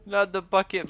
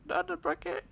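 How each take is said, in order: First: Said in the usual way. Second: Very high-pitched grieving wail. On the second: Real, not acted. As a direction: cry it out in falsetto. Mourning the crushed bucket.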